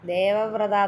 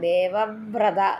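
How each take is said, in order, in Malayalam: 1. ഈ വാക്ക് ഊന്നലില്ലാതെ ലളിതമായി പറയുന്നു. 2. ഈ വാക്ക് ഉറച്ച ഊന്നലോടെ പറയുന്നു. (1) "ദേവവ്രത എന്നല്ല" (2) "ദേവവ്രത എന്ന് പറയണം. ... ഒന്ന് ഊന്നി ഉച്ചരിക്കണം"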